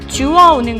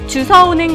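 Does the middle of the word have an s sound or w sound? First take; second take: w sound; s sound. First: The middle of the word has a w sound. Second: The middle of the word has an s sound. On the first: The speaker calls it right. "주워오는 거죠" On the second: The speaker calls it wrong. "잘못 얘기하고 있진 않으신가요? ... 아니라"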